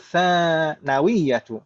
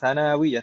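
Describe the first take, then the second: First: The first syllable's vowel is held long. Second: The second syllable's vowel is held long. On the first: The speaker calls it right. "yang betul sa-nya yang panjang, nunnya pendek" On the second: The speaker calls it wrong. "nunnya yang dipanjangkan"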